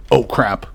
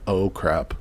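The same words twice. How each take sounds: First: Sudden louder exclamation; startled outburst. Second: Said in the usual way. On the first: Real, not acted. Player spotting a raptor, startled outburst. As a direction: blurt it out in alarm.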